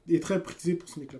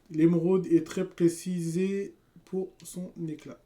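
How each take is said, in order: First: Prisée said correctly, raised and loud; correction. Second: Précisée said instead of prisée, slow and loud; misreading. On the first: Streamer correcting his misread word, quick and loud. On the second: Streamer misreading the emerald description, slow and loud. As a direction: read précisée by mistake, slowly. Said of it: "Je sais pas pourquoi j'ai dit précisée". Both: Real, not acted.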